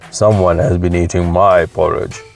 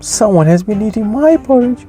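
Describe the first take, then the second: First: It is said in a big, deep voice. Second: It is said in a small, cute voice. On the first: "in his great big voice" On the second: "in his cute little voice"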